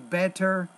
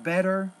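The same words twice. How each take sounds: First: The middle consonant is a clear T. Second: The middle consonant is a quick flap. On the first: "If you pronounce it as a T" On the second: "So the flap sound you don't like"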